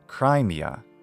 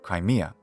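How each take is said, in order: First: The stress is on the first syllable. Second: The stress is on the second syllable. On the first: The speaker calls it wrong. "I don't recommend accenting the first syllable as some do, so not Crimea" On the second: The speaker calls it right. "but Crimea"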